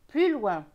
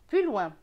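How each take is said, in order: No difference in how they are said.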